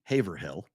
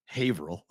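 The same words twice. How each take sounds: First: Haverhill said as HAY-ver-HILL, with the h sounded; spelling pronunciation. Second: Haverhill run together as HAY-vrul, the h dropped; local pronunciation. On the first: Local showing how the spelling looks, Haverhill said as HAY-ver-hill. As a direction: pronounce Haverhill as written, a full "hill" at the end. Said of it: "It's supposed to be". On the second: Local giving the real town name, Haverhill said as HAY-vrul. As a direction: say Haverhill with the ending swallowed, HAY-ver-ul. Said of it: "but it's". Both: Shown as a demonstration.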